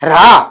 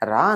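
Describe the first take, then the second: First: The word is barked out sternly and harshly. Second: The word is called out gently and mildly. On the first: The child comes trembling. "వణుక్కుంటూ వస్తాడా రాడా?" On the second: The child does not come. "రా అని పిలిచాం, పిల్లాడిని రాలేదు"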